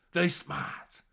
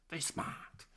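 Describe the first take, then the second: First: Said in the usual way. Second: Very smart whispered breathlessly; a hushed echo of very smart. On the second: Shown as a demonstration.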